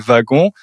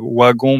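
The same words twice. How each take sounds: First: The word begins with a V sound. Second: The word begins with a W sound. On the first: The speaker calls it right. "mais wagon" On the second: The speaker calls it wrong. "on dit pas wagon"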